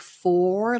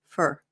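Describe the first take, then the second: First: The word has a full vowel like 'four'. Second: The word has a short, reduced weak vowel. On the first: "like the number four" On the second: "Americans tend to use the reduced form of this word"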